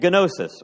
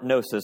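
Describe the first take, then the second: First: The word begins with a sounded G. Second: The word begins without a G sound. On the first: The speaker calls it wrong. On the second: The speaker calls it right.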